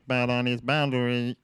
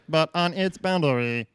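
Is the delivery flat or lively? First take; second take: flat; lively. First: It is said in a flat, monotone robotic voice. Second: It is said in a livelier, bouncier robotic voice. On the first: "I don't know if I should just be monotone" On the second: "Give us a bit more of peppy Stephen Hawking"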